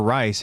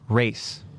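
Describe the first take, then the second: First: The vowel sounds like the one in 'eye'. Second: The vowel sounds like the one in 'day'. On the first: The speaker calls it wrong. "it's not Reese or Rice" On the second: The speaker calls it right. "It's actually like race"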